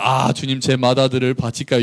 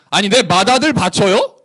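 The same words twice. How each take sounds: First: Mock piety. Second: Snippy, incredulous challenge; insolent sarcasm. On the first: Worshipper humbly offering a firstborn to the Lord, pious. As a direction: ask it humbly, like a reverent prayer. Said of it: "이런 게 아니라". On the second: Acted. Israel offering the firstborn to God, insolent. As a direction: throw the offer back with cheek. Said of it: "싸가지가 없는 거죠".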